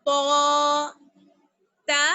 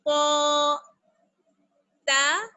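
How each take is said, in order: Both takes have the same delivery.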